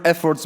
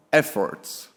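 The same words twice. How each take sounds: First: Said in the usual way. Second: Efforts set apart, said lower and slower; stress on efforts. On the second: Shown as a demonstration. Reading von der Leyen's tweet to the audience, pointedly stressing "efforts". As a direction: lean on the word "efforts" so it sounds doubtful. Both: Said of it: "I emphasize the word efforts".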